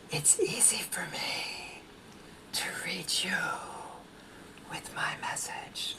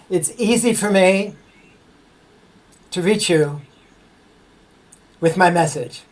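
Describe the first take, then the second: First: It is whispered very softly. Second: It is spoken at a normal volume.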